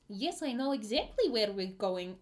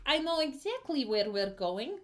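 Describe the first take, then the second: First: Puddle. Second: The guide's voice tipping upward in pitch; voice jumping up. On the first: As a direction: answer as the odd old guide, pitch swooping. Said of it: "almost sounds like the voice". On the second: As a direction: let the put-on voice climb as it goes. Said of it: "went up a couple octaves". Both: Acted.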